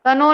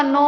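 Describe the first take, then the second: First: "कनो" with the k pronounced before n; wrong sounded k. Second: "नो" starting on n, no k; correct silent k. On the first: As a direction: show the mistake "कनो", k sounded. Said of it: "कनो नहीं होता". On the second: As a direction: say "नो" with the k dropped. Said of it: "नो होता है". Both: Shown as a demonstration.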